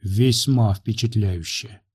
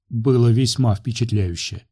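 First: Slow reverent. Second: A hint of reverence; reverent. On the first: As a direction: savour it slowly in awe. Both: A narrator's reading. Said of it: "Тон горланинки был почти благоговейным".

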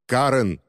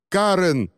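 First: Restrained cry of a name, slightly raised; narrated cry. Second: High-pitched cry for help; desperate cry. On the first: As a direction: call out «Карен» with mild urgency. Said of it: "крикнул он". (сдержанный окрик) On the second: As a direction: call out «Карен» much higher, desperately. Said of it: "услышала она крик Рубина". (отчаянный крик, высоко) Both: A narrator's reading.

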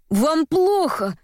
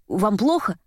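First: Slow, high-pitched alarmed cry. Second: Said in the usual way. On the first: A narrator's reading. Courier to drowning Varvara in the bath, crying out. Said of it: "закричал пан Софий".

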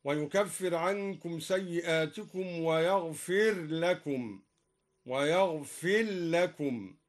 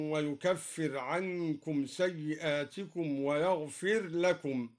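First: ويغفر لكم said wa-yaghfil-lakum, the ر merged into the ل. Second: Said in the usual way. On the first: Shown as a demonstration. Reciter demonstrates the Durī merging of ر into ل in ويغفر لكم. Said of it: "هكذا". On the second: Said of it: "قرأ الدوري بإظهار الراء وإدغامها".

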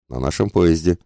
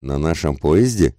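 First: Said in the usual way. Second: Slow question leaning on "поезде"; вопрос. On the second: A narrator's reading. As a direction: inquire slowly, checking on "поезде". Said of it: "осведомился полковник". (медленно, вопросительно выделяя «поезде»)

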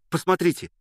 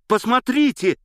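First: Higher excited appeal; eager call. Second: Much higher, louder shout of the repeat; excited shout. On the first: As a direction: urge the listener to look. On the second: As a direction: cry it out, pleading to be seen. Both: A narrator's reading. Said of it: "кричал он, обращаясь ко мне".

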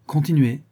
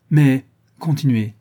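First: Composed, settled request to go on; steady again, simply inviting him on; calmer tone. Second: Louder, slow, pressing urge to go on; agitated urging. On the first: The count, composed again, asks Godolphin to go on calmly. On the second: The count, still moved, urges Godolphin to continue, louder and slow. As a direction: push him to continue, still stirred up. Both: A narrator's reading. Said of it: "reprit le gouverneur d'un ton plus calme".

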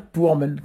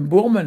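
First: "pourmen", starting on an unvoiced P; initial P. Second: "bourmen", starting on a voiced B; initial B. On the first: Teacher shows the word to say, "pourmen" with P. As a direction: say "pourmen" with P, not B. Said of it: "on va dire pourmen". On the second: Teacher shows the form not to use, "bourmen" with B. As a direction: say "bourmen" with B in place of P. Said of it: "on va pas mettre un M bourmen". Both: Shown as a demonstration.

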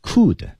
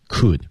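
First: "could" with a full, rounded oo vowel; high-pitched, fully stressed "could"; full form. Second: "could" reduced to a short uh-like vowel; weak form. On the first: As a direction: say "could" unreduced, as a word on its own. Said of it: "不能把它读成原形的那种读法". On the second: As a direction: weaken "could" instead of giving it a full oo. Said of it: "在这种情况被弱读". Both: Shown as a demonstration.

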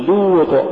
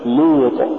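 First: لوط with light L and pure long u. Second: لوط with L and vowel wrongly thickened; heavy long u error. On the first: Tajweed teacher giving the form to say, light long u. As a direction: keep لوط as a clean loot. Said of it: "قل". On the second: Tajweed teacher showing what not to say, heavy long u. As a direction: darken the start of لوط. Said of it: "ولا تقل". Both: Shown as a demonstration.

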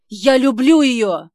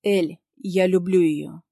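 First: Медленно, выше и очень громко; выкрикнуть признание; отчаянный крик. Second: Медленно и спокойно, без страха; сказать твёрдо и бесстрашно. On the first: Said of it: "взрывается Ник". (Ник выкрикивает признание в любви) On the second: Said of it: "выдаёт мне бесстрашно". (Ник бесстрашно признаётся в любви) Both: Acted.

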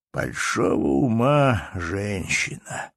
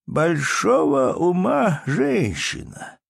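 First: Put-on old man repeating. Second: Higher, very slow, weighty drawl; old man's praise. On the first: Old count repeats his praise, slow and settled. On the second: Acted. Old count praises the baroness, slow and weighty. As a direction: lean on ума, deliberate and grand. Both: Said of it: "прибавил он".

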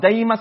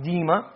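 First: Daima, first syllable said like "die"; daima pronunciation. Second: Dima, first syllable said like "dee"; dima pronunciation. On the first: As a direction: say daima with a clear "ai" diphthong, dai-ma. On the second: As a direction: say dima with a long plain "ee", dee-ma. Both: Shown as a demonstration. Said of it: "You can put it both ways".

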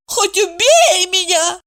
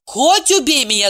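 First: High, slow mocking echo of Хоть убей меня; mocking mimicry. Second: Said in the usual way. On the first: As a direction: mimic her friend's words higher and slower. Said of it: "Евдокия передразнила подругу". (передразнивая подругу, выше и медленнее) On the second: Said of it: "передразнила подругу".

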